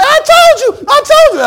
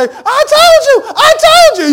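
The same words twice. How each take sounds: First: Very high, loud gloating shout; hammed-up victory cry; mock triumphant shout. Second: Very high, loud, slow gloating shout; hammed-up victory cry; mock triumphant shout. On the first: Believers gloating at the reveal, high shout. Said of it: "And we say". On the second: The vindicated mother gloating on the show, high shout. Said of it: "they say".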